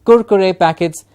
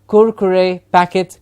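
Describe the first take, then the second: Both takes have the same delivery.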